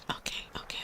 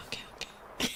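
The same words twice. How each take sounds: The two takes are said the same way.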